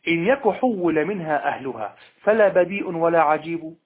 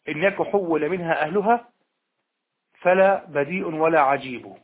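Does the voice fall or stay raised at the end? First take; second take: stays raised; falls. First: The voice stays raised at the end. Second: The voice falls to a close at the end. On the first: The thought continues into the next verse. The speaker calls it right. "قل" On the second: The second half answers the condition and ends the thought. The speaker calls it wrong. "لا تقل هكذا"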